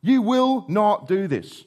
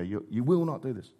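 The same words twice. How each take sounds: First: Slow, pressed refusal, each word weighted; emphatic refusal. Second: Quieter, incredulous replay of Peter's refusal; retelling Peter's words to his king, hushed. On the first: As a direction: refuse flatly, leaning on every word. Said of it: "He is emphatic in his refusal". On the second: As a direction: say it low, shocked at the nerve. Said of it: "Hang on, King Jesus talking to Peter". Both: Retold or imitated.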